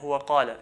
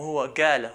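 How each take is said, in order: First: The word qala starts with a deep q sound. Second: The word qala starts with a g sound. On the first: This is the standard pronunciation. "Instead of saying huwa qala" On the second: This is how Gulf dialects say it. "they change it to a g"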